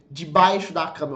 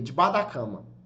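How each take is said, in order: First: Each word is pronounced fully and separately. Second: The words are reduced and run together. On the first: "Eu não falei" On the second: "sons se juntam"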